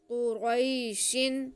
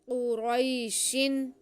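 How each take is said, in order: The two takes are said the same way.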